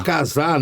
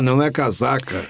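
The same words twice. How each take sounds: First: "casar" with a silent final r, kaza; "casar" said as kaza, no final syllable. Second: "casaca" in full, three syllables ka-za-ka; "casaca" ending on a clear ka. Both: Shown as a demonstration.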